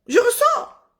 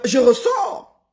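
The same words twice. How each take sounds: First: RESSORS pitched very high; emphatic repeat. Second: Said in the usual way. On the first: Real, not acted. Vlogger telling viewers she leaves a dull film, high emphatic repeat.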